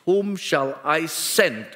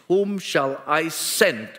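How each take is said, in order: First: It sounds firm, demanding a response. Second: It sounds firm, demanding a response.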